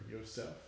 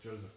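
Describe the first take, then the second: First: The name is pronounced the German way. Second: The name is pronounced the English way.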